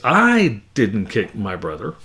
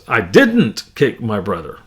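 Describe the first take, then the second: First: The stress falls on the word I. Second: The stress falls on the word didn't. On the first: Someone else kicked the brother. "If I put the emphasis on the I" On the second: Other harm was done, but no kicking. "If I put the emphasis on the second word, didn't"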